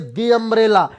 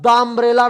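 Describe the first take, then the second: First: 'The' is said with a long 'ee' vowel. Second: 'The' is said with a short 'uh' vowel. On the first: The speaker calls it right. "आप बोलोगे दी umbrella" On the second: The speaker calls it wrong. "कभी भी आप द umbrella नहीं बोलोगे"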